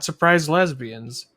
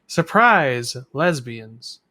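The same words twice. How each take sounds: First: Both words run together as one phrase. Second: Surprise is exclaimed, then a break before lesbians. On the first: The speaker calls it wrong. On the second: The speaker calls it right.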